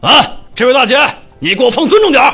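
It sounds righteous and bold, like Lu Zhishen.

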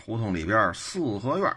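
It is said in a Beijing accent.

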